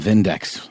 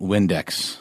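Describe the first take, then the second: First: The word begins with a V sound. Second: The word begins with a W sound. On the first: The speaker calls it right. "pronounced with a German accent. It's the Vindex with a V" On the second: The speaker calls it wrong. "that is not Windex"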